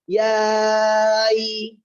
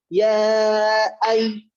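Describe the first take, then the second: First: The two words run together without a gap. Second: A tiny gap separates the two words. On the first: The speaker calls it wrong. "Jadi bukan ya ay. Jangan" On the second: The speaker calls it right. "Ada space-nya"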